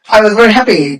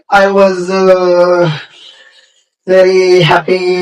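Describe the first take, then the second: First: It is rushed out quickly without breaks. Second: It is slow, broken by pauses and fillers. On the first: "you speak fast English, fast English" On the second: "Then now slow English"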